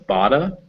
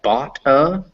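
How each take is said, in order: First: The two words fuse with a D-like sound. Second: The two words are said as separate words.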